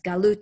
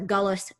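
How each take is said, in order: First: It is said without the Eastern European pronunciation. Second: It is said with an Eastern European pronunciation.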